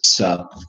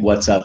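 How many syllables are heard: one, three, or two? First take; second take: one; two. First: The phrase is squeezed into one syllable. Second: The phrase is contracted into two syllables. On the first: "I love that lazy English" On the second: "instead of saying"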